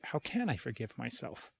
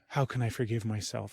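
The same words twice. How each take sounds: First: It sounds light, open and curious. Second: It sounds sad, heavy and despairing. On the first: The question is a genuine, open inquiry. The speaker calls it right. "It's like curiosity" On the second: The question feels hopeless and full of shame. The speaker calls it wrong. "kind of with my head hung and sadness and despair"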